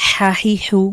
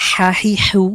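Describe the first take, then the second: The two takes are said the same way.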